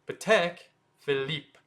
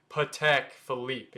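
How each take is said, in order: First: Patek Philippe as puh-TECK, fee-LEEP, short syllables; short, separated French Patek Philippe; short French pronunciation. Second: Patek Philippe as long puh-teck fuh-leep; drawn-out mispronunciation. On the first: Teacher corrects the long version, short French pronunciation. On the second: Teacher contrasts the longer wrong way, drawn-out mispronunciation. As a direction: stretch Patek Philippe out, Americanized. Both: Shown as a demonstration. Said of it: "lot shorter than saying".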